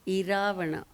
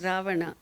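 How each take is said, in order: First: The word starts with an added i vowel. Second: The word starts directly with an r sound. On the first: "they'll add E" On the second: "Ravana will not be pronounced as Ravana"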